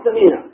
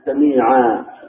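First: The word ends on a consonant with no vowel. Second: The word ends in a long 'a' vowel. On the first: This follows the basic rule of pausing. "نقول سميع ونقف بالسكون" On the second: This is how most Arabs pause on the word. "وإنما وقفوا بالألف سميعا بصيرا هكذا"

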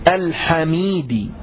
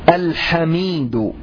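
The two takes are said the same way.

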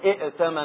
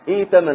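First: Two glottal stops are pronounced at the start. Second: The second glottal stop becomes a long ee vowel. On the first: The speaker calls it wrong. "ما نقول ائتمن هكذا بهمزتين" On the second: The speaker calls it right. "نقول ائتمن مثل إيمان"

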